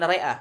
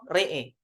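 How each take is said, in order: First: The word ends with an open 'a' vowel. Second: The word ends with a vowel leaning toward 'e'. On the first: The speaker calls it wrong. "bukan re'a" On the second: The speaker calls it right. "dibaca wakaf berhenti misalnya wakaf re'e"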